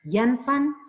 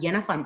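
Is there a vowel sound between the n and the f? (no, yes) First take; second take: no; yes. First: No vowel is heard between the n and f. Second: A vowel is heard between the n and f. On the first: This is an alternative reading. "tapi dibaca janfan" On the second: This is the widely accepted reading. "bukan janafan"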